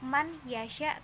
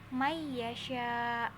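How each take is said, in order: First: The n sound is pronounced clearly before y. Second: The n sound merges into a doubled y. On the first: The speaker calls it wrong. "bukan dibaca man yasha" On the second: The speaker calls it right. "tapi may yasha"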